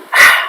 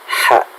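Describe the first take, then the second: First: The h has a loud, windy rush of breath. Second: The h is short with only light breath. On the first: The speaker calls it wrong. "bukan H, bukan gitu" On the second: The speaker calls it right. "sekedarnya tepat sasaran"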